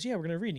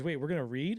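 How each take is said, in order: First: Higher matter-of-fact answer, "read" falling at the end; confirming. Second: Mildly surprised question, "read" rising at the end. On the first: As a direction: bring "read" down as a settled fact. Director confirms they will read. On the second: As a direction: lift "read" into a doubting question. Actor surprised he must audition. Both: Retold or imitated.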